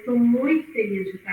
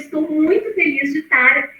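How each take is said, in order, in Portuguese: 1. A voz está fraca, baixa e desanimada. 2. A voz está animada, viva e entusiasmada.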